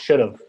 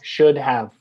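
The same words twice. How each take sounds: First: Have is reduced and linked to should. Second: Have is pronounced fully as a separate word. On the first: The speaker calls it right. "It's should have" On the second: The speaker calls it wrong. "we don't say should have"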